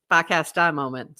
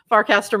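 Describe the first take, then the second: First: Dropped R's in a Boston accent. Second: Said in the usual way. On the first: Shown as a demonstration. Co-host echoes her own phrase for laughs, in a Boston accent. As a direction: say Farcaster the Boston way, "Fahcastah". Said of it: "Your Boston accent".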